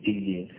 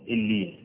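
Both takes have the same delivery.

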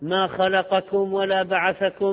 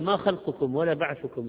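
First: The words are voweled as verbs, khalaqakum and ba'athakum. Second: The words are voweled as nouns, khalqukum and ba'thukum. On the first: He did not create you or resurrect you. The speaker calls it wrong. "ناس عالم تقرأ فاتح المصحف" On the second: Your creation and resurrection are like those of one soul. The speaker calls it right. "هي ما خلقكم ولا بعثكم إلا كنفس واحد"

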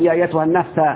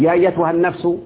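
First: The last word ends with an a vowel. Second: The last word ends with a u vowel. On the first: The speaker calls it wrong. "لا تقل يا ايتها النفس، لا يجوز النصب ابدا" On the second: The speaker calls it right. "انما يجوز فقط الرفع"

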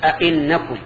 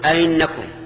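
First: The second glottal stop is fully pronounced. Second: The second glottal stop is softened and passed quickly. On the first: "تحقيقها أن تقول" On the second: "تسهيلها أن تقول ... تمر بها بسرعة"

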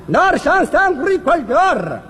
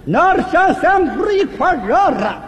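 First: The phrase is said somewhat slowly. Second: The phrase is said very slowly. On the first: "慢点" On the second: "再慢点"

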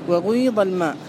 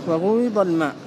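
No difference in how they are said.

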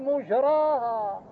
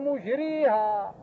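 First: The long vowel is a plain open 'a' sound. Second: The long vowel is tilted towards an 'e' sound. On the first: It names the place over which it sails. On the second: God is the one who makes it sail.

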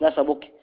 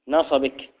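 First: The b is not followed by an i vowel. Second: The b is followed by an i vowel. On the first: The speaker calls it wrong. "مش نصبك" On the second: The speaker calls it right. "بكسر الباء"

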